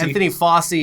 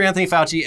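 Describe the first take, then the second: First: The surname is said with an 's' sound. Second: The surname is said with a 'ch' sound. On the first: This is the restaurant-owning cousin. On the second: This is the famous doctor.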